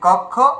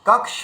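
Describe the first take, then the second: First: The cluster is said the usual Bengali way. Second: The cluster is said as k joined to s. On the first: The speaker calls it wrong. "এটা আমরা বাংলায় উচ্চারণ এরকমই করি" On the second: The speaker calls it right. "কিন্তু বাস্তবে এটার উচ্চারণ কি হবে?"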